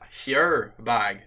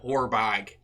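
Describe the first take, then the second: First: The first word has a Northern Irish vowel. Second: The first word has a standard vowel.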